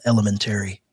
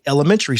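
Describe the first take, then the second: First: "elementary" with a full "-tary" ending, like "terry"; un-American pronunciation. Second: "elementary" with the -tary squeezed into a quick "-tree"; American pronunciation. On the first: Retold or imitated. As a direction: imitate the slip, spelling out "elementary" as el-e-men-terry. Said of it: "Americans don't say elementary". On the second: Shown as a demonstration. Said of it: "we say elementary school".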